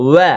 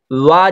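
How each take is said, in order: First: ওয়া short, vowel fronted towards "weh"; correct fronted vowel. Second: ওয়া with a broad "waa" vowel; mispronounced vowel. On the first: Teacher correcting learners, short fronted "weh" in ওয়া. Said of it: "এখানে ভালোভাবে উচ্চারণ করবেন". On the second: Teacher showing learners the mistake, broad "waa" in ওয়া. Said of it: "ওয়া যদি না হয়". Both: Shown as a demonstration.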